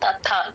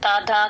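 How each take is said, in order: First: The middle consonant is aspirated, with a breath. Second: The middle consonant is plain, without a breath. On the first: The speaker calls it right. "తథా ఒత్తు థా" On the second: The speaker calls it wrong. "తదా కాదు"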